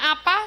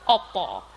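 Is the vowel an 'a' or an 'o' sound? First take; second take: a; o. First: It uses the standard 'a' vowels. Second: It uses Surabaya-style 'o' vowels.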